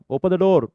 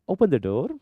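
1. हा वाक्यांश मोठ्या आवाजात, जवळजवळ ओरडून म्हटला जातो. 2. हा वाक्यांश शांत, सामान्य आवाजात म्हटला जातो. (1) "ओरडायचं नाही" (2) "खतम"

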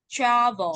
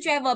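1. Trọng âm rơi vào âm tiết đầu. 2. Cả hai âm tiết đều được nhấn bằng nhau. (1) "rơi một này" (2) "travel bằng nhau đâu nhá"

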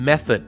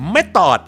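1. ออกเสียงด้วยสำเนียงอังกฤษ 2. ออกเสียงด้วยสำเนียงไทย (1) "ข้อออกเสียงว่าอะไรครับ, method นั่นเองครับ" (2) "สำเนียงไทย"

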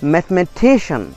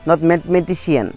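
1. बलाघात '-cian' से पहले वाले अक्षर पर पड़ता है। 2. बलाघात '-cian' से पहले वाले अक्षर से हटकर पड़ता है।

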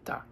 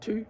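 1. La palabra tiene una vocal 'a' reducida. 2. La palabra tiene una vocal 'oo' plena.

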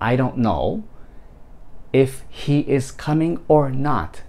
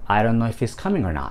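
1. 一語ずつ、全部はっきり言います。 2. 単語が縮んで、つながって言われます。

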